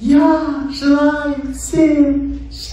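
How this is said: It is said with heightened, festive emotion. It lifts the listener's emotional state. "Первый тип звука – это звук эмоций"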